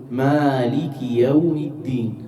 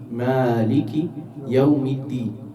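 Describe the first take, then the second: No difference in how they are said.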